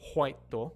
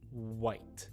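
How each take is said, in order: First: The W is weak and the word ends in a vowel. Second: A strong W is made with rounded lips. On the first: The speaker calls it wrong. "Not whito" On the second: The speaker calls it right. "it starts in the back of your teeth and then goes to your lips"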